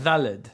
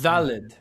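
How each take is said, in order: Both takes have the same delivery.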